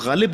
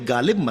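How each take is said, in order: First: The word begins with a throaty gh sound. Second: The word begins with a plain g sound. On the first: The speaker calls it right. "गालिब को गालिब बोलिए" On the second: The speaker calls it wrong. "गालिब मत करिए"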